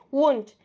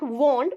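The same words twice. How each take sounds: First: "Won't" with a short "oo" as in wood; short wouldn't, "wunt". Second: "won't" with a long "oh" vowel. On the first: Teacher offering the short form, "Won't" as "wunt". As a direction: squeeze wouldn't into one syllable, "Won't" said as "wunt". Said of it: "Also, you can pronounce won't". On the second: Teacher contrasting for learners, "won't" with long O. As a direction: round the vowel of "won't" into "wohnt". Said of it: "It is not won't". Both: Shown as a demonstration.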